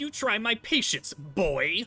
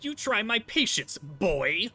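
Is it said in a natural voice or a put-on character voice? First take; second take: character voice; character voice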